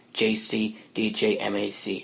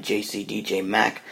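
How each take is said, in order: First: M A C spelled letter by letter, slowly. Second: Said in the usual way. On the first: Shown as a demonstration. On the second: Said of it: "that's at sign J C D J M A C".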